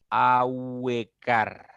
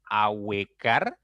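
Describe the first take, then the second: First: "Ahuecar" stretched very slowly, each vowel opening wider; "Ahuecar" drawn out syllable by syllable, mouth opening; "Ahuecar" muy alargado, abriendo la boca; drawn-out demo. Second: "ahuecar" said slowly, gliding from U into E; "ahuecar" said slowly to show the rising diphthong; "ahuecar" dicho despacio; slow demo word. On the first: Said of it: "Se abre un poquito más tu boca". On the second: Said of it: "cuando tú al pronunciar". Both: Shown as a demonstration.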